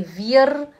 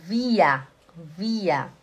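First: "wir" with the final r pronounced; wrong sounded r. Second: "wir" said as vee-ah, falling; correct vocalised r. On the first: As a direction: mistaken "wir", consonant r at the end. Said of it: "e nem wir". ("wir" errado, com r final pronunciado) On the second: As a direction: model "wir" with the r turned into an open a. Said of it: "é wir". ("wir" correto, soando como vía) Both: Shown as a demonstration.

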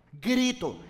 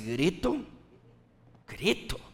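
First: "grito" set apart, pitched higher; "grito" as a lifted, falling statement; retold inner word. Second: Retold bemused pondering, pitched down; puzzled reaction. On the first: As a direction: let "grito" land alone, higher and falling. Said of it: "escuché la palabra grito". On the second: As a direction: mull the word over, mildly baffled. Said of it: "Y yo me quedé así".

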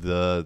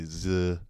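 First: Said in the usual way. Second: "z" with a buzzing z for the th; French learner's the, said "z"; French-accented "the". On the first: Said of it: "instead of the". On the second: Shown as a demonstration. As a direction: say the as "z", drawn out. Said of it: "they say z".

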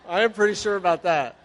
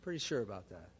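First: Higher and louder, stress on "am"; emphatic claim. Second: Much lower and softer, "Pretty sure about that" tossed off; wry quiet aside. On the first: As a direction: assert "I am pretty sure" firmly, pressing "am". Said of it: "I was not an alcoholic". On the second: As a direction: drop it into a dry, wry undertone. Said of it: "I wanted to drink". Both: Shown as a demonstration.

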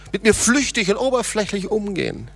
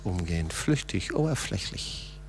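First: "mir" lifted high and leaned on; stress on mir. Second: "flüchtig, oberflächlich" breathed out in a near-whisper, much softer; dropped to a whisper. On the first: Pastor stressing "mir" to the congregation. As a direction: press the word "mir" in "mit mir flüchtig". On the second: Pastor echoing "flüchtig, oberflächlich" in a whisper. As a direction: let "oberflächlich" fade into a whisper. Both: Shown as a demonstration.

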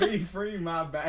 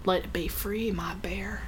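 First: Laughing imitation. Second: Whispered. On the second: Pretend. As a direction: coo it, dropping to a whisper. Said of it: "that was fucking awesome".

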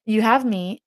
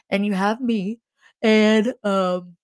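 First: Said in the usual way. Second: Words stretched by a yawn. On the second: Real, not acted. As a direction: talk through a yawn. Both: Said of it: "sorry for the yawning".

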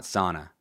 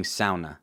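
First: "sauna" said SAW-na; common English pronunciation. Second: "sauna" said SOW-na; Finnish-style pronunciation. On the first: Host showing the way not to say it, "sauna" as SAW-na. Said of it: "not sauna". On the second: Host defending how a friend back from Finland says it, "sauna" as SOW-na. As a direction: say "sauna" with an "ow" as in cow. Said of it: "And yes, I'm saying sauna". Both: Shown as a demonstration.

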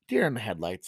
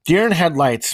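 First: Segment title sign-off. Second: Segment title call. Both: Shown as a demonstration. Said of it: "the deer in the headlights segment".

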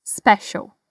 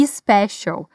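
First: "special" starting straight on a clean S; correct "special". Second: "special" with an added "i" sound before the s; the mistake of adding a vowel before "special"; learners' error; wrong vowel-first "special". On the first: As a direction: start "special" right on the S sound. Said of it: "começa com som de S mesmo". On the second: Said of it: "cuidado aqui pra não dizer special". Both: Shown as a demonstration.

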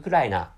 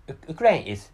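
First: Ukraina said as oo-KRA-ee-na with a tapped r; mother-tongue pronunciation. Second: Said in the usual way. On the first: Shown as a demonstration. Telling viewers his mother tongue says Ukraina. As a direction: turn Ukraina into four syllables, u-kra-i-na. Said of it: "in my mother tongue". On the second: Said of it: "so Ukraine is called".

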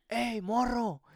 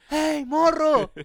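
First: High-pitched call from afar, held back in volume; distant shout. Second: High, loud, drawn-out holler; full shout. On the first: Stranger hailing a lost kid from the back of the bus, restrained shout. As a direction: call out like a man yelling from the back. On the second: Stranger yelling to a kid from the back of the bus, full shout. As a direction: bellow it slowly to someone far away. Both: Retold or imitated. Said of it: "un señor me grita al fondo".

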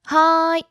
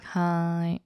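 First: High, loud eager hi; enthusiastic. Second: Flat hi. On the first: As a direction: chirp it with real enthusiasm. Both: Shown as a demonstration.

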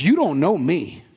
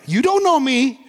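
First: Said in the usual way. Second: Higher-pitched mock indignation; defensive retort. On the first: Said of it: "Somebody, in fact, says". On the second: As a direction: imitate someone touchy, pitched up. Acts out defensive somebody's retort.

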